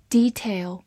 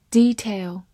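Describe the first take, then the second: No difference in how they are said.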